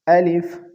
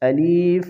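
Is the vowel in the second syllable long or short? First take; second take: short; long. First: The second syllable has a short quick vowel. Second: The second syllable has a long drawn-out vowel. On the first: The speaker calls it right. "जल्दी के साथ पढ़ें" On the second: The speaker calls it wrong. "अलिफ में या की इजाफा कर देते हैं"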